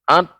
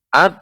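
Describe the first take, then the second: First: The consonant is made with the tongue tip. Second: The same.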